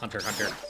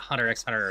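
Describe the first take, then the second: First: Nothing is said between the two words. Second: The letter X is said aloud between the words. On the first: The speaker calls it right. "It's just" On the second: The speaker calls it wrong. "It's not"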